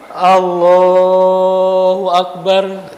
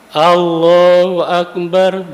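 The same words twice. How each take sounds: First: Allah is stretched out very long. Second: Allah is held only briefly. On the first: The takbir lasts the whole way down into prostration. The speaker calls it wrong. "bacaan takbirnya panjang" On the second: The takbir keeps its normal length of two beats. The speaker calls it right. "Allahu Akbar dua"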